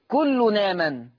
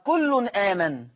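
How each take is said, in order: First: The n runs straight into the second word. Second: A glottal stop begins the second word.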